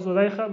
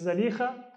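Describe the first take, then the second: First: The name is said in its common form, Zulaykha. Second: The name is said in its original form, Zalikha. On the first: This is how people usually say it. The speaker calls it wrong. "we often call her Zulaykha" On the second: This is the original form of the name. The speaker calls it right. "the proper pronunciation is Zalikha"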